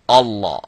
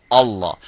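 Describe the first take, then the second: Both takes have the same delivery.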